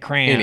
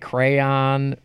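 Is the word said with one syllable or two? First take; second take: one; two. First: The word is said as one syllable, cran. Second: The word is said with two syllables. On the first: This is how people from Michigan say it. "We say crayon. / C-R-A-N" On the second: This is how people elsewhere say it. "We don't say crayon"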